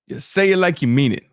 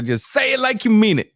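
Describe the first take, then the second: First: Said in the usual way. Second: "you" stressed and pitched higher in "just say it like you mean it"; emphatic. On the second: Shown as a demonstration. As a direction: lift and punch "you", then fall at the end.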